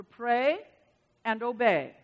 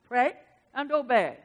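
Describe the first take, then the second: First: Said in the usual way. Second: Lightly imitated Japanese accent, louder. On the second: Quoting Doctor Cho's sermon, light mock Japanese accent. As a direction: quote him with a hint of Japanese accent. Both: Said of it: "He would say that in his Japanese accent".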